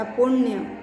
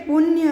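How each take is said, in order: First: "पुण्य" with retroflex ण before य; correct pronunciation. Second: "पुण्य" with a dental n, "pun-ya"; incorrect form. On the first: Teacher gives students the right word, correct pronunciation. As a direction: curl the tongue for the half ण in "पुण्य". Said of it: "सही शब्द कहलाएगा पुण्य". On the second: Teacher reads out the word to be corrected, incorrect form. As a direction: use an ordinary n in "पुण्य". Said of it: "न के स्थान पर न का यूज़ होगा". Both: Shown as a demonstration.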